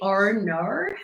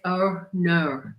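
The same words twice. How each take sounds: First: It is said in a natural Australian accent. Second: It is said in careful, conscious pronunciation.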